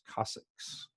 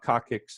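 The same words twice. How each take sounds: First: The word is said with the S sounds. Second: The word is said without the S sounds. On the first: The speaker calls it right. "it's coccyx with S, like it has S's" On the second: The speaker calls it wrong. "It's not coccyx"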